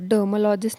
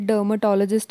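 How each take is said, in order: First: The word is said with one syllable dropped. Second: The word is said with all five syllables. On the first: The speaker calls it wrong. "डर्मलॉजिस्ट नसतं" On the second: The speaker calls it right. "ते डर्मटॉलॉजिस्ट असतं"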